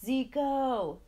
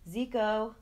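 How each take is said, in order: First: Higher, louder, sharper angry call; angrier call. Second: A loud call from far off. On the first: Impatient father calling his son a second time, angry shout. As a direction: call him again, now really cross. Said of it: "this time angrier". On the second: Father calling his son home from a distance, loud call. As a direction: call his name across the grass. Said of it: "his name being called in the distance". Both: Acted.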